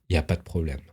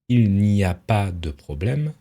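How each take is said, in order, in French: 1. Le son du 'ne' de négation est omis. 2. Le son du 'ne' de négation est prononcé. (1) "dans la réalité, on va plutôt dire" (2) "normalement ça devrait donner"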